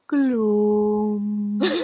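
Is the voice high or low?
low. It is said in a low, gloomy voice.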